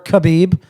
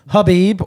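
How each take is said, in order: First: The name begins with a K sound. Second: The name begins with a soft H sound. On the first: "however you want to pronounce it" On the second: "I like taking the K off"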